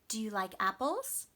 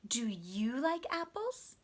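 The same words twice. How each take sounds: First: The strongest stress falls on the word apples. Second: The strongest stress falls on the word you. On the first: The speaker is asking a new question. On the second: The same question is given back to the other person.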